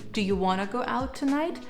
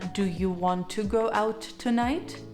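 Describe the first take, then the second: First: Want to is shortened to wanna. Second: Want to is said in full. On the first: "You could say" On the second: "Rather than"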